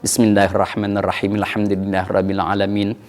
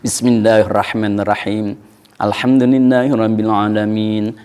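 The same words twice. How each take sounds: First: The verses are joined smoothly without any break. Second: There is a clear pause between the verses. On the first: "kalau mau diwaso semuanya waso" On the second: "Kalau mau ada napas, ada jeda, ada saktah"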